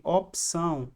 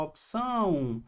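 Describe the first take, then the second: First: Said in the usual way. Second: "opção" with a long, drawn-out final "ção"; stress on last syllable. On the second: Shown as a demonstration. Teacher showing which syllable is strongest, stretched "ção" in "opção". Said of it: "Qual é a sílaba mais forte?".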